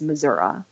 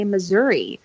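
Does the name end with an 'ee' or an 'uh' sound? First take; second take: uh; ee. First: It ends with an 'uh' sound, rural style. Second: It ends with an 'ee' sound, city style.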